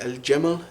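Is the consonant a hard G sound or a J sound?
J sound. The word is said with a J sound. This is the Modern Standard Arabic form. "So you'd say al jamal"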